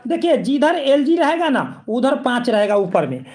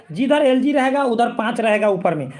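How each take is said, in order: First: Slow, spelled-out teaching of the trick; teacher slowing down to drill in a memory trick; slow trick statement. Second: Said in the usual way. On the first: Shown as a demonstration. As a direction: lay the rule out slowly so it sticks. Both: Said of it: "ये trick आप लोग को मैं बताता हूँ".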